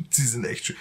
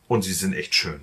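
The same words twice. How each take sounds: First: Laughing ironically. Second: Said in the usual way. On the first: Real, not acted. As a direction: laugh through it, higher. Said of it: "Feuermelder sind potthässlich".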